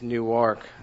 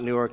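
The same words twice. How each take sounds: First: Newark is said the local Eastern Shore way. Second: Newark is said the Kansas City way. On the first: The speaker calls it right. "it's Newark" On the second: The speaker calls it wrong. "It's not Newark"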